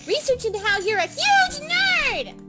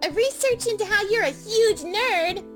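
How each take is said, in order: First: It is screamed loudly. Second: It is said without screaming.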